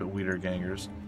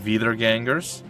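First: The first word begins with a W sound. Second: The first word begins with a V sound. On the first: The speaker calls it wrong. "I'm absolutely sure that I'm pronouncing that poorly" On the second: The speaker calls it right. "It's probably like Veeder gangers"

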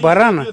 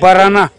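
First: The stress falls in the standard way. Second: The stress falls in the regional folk way. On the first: This is the correct literary form. The speaker calls it right. "правильно будет говорить барана" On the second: This is how it is said in the rural districts. The speaker calls it wrong. "как принято говорить в бурятских аймаках"

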